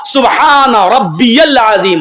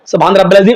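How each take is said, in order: First: It is said slowly, each word clear. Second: It is said quickly, words run together.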